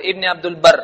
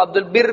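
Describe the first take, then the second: First: البر said "ul-barr", with an a; Urdu pronunciation. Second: البر said "ul-birr" with an i; common mispronunciation. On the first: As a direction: say "ibne Abdul Barr" for ابن عبد البر. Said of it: "اردو میں آپ کہیں تو". (البر کو اردو انداز میں "عبدُالبَرّ" پڑھیں) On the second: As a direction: say "birr" in البر, not "barr". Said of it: "بہت سارے لوگ اس کو عبد البر پڑھتے ہیں". (البر کو زیر سے "بِرّ" پڑھیں) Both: Shown as a demonstration.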